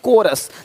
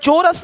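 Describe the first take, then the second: First: The word begins with a 'k' sound. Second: The word begins with a 'ch' sound. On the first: The speaker calls it right. "C H भी का है" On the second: The speaker calls it wrong. "नहीं"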